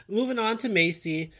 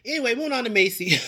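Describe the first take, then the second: First: Said in the usual way. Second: Giggling through the words, quick and loud; laughing. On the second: Real, not acted. Vlogger laughing as she moves on to Macy. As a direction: laugh it out as you change the subject. Laughing while switching topics.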